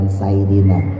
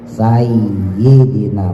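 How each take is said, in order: First: The y sound is short and single. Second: The y sound is held and doubled. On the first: The speaker calls it wrong. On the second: The speaker calls it right.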